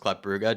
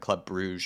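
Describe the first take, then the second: First: The name is given a Flemish pronunciation. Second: The name is given a French pronunciation. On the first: "more of a Flemish pronunciation" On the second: "a French pronunciation"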